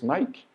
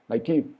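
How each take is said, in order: First: Portuguese-style, without extra emphasis at the end. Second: English-style, with some emphasis at the end. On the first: "não é assim que falamos em português?" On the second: "Em inglês seria Nike, né? ... uma certa ênfase, né, no, ali no final"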